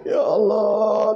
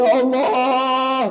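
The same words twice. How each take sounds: First: Slow, drawn-out fake wail; long, theatrical mock lament. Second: Higher, slow, hammed-up wail; stretched, much higher fake sob cry; louder mock wail. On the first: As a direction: ham up a grieving husband's cry. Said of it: "nangis bapak tuh". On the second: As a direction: cry out as the greedy husband. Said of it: "kata bapak tuh".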